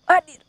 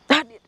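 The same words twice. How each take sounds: First: A sharp, higher, louder summons; louder call. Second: A firm loud summons; calling out. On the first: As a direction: shout the command to appear. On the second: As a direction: call the spirit to come forward. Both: Real, not acted. Calling the spirit to appear.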